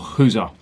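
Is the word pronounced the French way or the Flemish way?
Flemish. It is pronounced the Flemish way.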